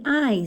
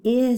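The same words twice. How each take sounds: First: "I" said like the word eye; long I. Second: "I" said as ih, as in pig; short I. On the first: Teacher naming the vowel to avoid, "I" as long eye. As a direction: give "I" its long eye sound. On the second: Teacher correcting the vowel for pupils, "I" as short ih. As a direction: give "I" its short ih sound. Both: Shown as a demonstration. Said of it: "not the I sound".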